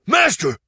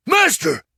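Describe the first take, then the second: First: High, loud excited call; high, loud shout of Master; excited cry. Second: High, loud second shout of Master; squeaking with excitement; even higher excited cry. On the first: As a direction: call your master in a rush. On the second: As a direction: repeat Master higher and louder. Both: Acted. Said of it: "he exclaimed".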